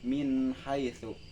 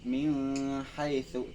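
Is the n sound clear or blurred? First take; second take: clear; blurred. First: The n is pronounced clearly and separately. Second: The n is blurred into the next sound. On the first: The speaker calls it right. "tetapi dibaca min haitsu" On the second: The speaker calls it wrong. "bukan min haitsu"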